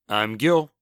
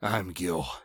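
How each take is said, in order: First: It is said in an ordinary, upbeat tone. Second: It is said in a somber, dark tone.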